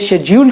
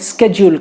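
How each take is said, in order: First: The word begins with a sh sound. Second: The word begins with an sk sound. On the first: This is how people in the UK say it. "UK वाले इसे शेड्यूल कहेंगे" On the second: This is how people in the US say it. "US वाले स्केड्यूल कहेंगे"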